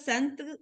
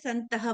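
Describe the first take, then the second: First: The word ends without a final h sound. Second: The word ends with a breathy h sound. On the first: The speaker calls it wrong. "संत नहीं बोल के" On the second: The speaker calls it right. "संतः बोलना है"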